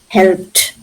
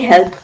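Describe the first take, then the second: First: The word ends with a clear final t sound. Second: The word ends without a final t sound. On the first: The speaker calls it right. "Helped. T" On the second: The speaker calls it wrong. "we don't say help"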